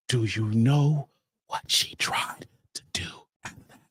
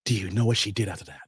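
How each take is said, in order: First: Whispered teaser question. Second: Said in the usual way. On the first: Shown as a demonstration. Teasing the audience before the twist, in a whisper. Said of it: "repeated teaser, whispered". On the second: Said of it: "repeated teaser".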